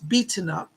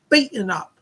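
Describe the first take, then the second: First: An American accent, with the T sounded. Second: A London Cockney accent, with the T dropped. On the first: "it's beaten up in American English" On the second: "she says it in her Cockney London accent... They don't say the T in Cockney English"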